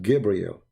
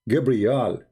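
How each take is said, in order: First: The name ends with an 'el' sound. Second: The name ends with an 'al' sound. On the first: This is the later form of the name. The speaker calls it wrong. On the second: This is the ancient form of the name. The speaker calls it right.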